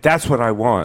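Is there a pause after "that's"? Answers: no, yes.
no. It is said smoothly with no pause. It sounds ordinary and harmless. "If you just say"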